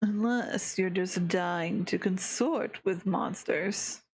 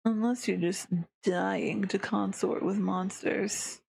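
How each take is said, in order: First: Slower take with the stress corrected off "Unless"; re-read it slowly, stress in the right place; fixed emphasis. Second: Misplaced emphasis, UNLESS hit too hard; a first read with the stress on the wrong word. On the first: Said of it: "I gotta fix the emphasis". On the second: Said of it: "I read that wrong". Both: Shown as a demonstration.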